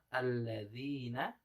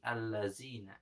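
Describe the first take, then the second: First: The middle consonant is a soft 'dh' sound. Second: The middle consonant is a buzzing 'z' sound. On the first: The speaker calls it right. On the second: The speaker calls it wrong.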